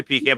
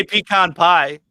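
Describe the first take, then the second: First: "pecan" said pee-CAN, short flat a; "pecan" rhyming with "man". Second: "pecan" said pee-KAHN before "pie"; "pecan" rhyming with "con". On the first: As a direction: say "pecan" ending like the word "can". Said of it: "Yeah, I say pecan". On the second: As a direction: say "pecan" with a broad "kahn" ending. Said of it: "but I say pecan pie". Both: Shown as a demonstration.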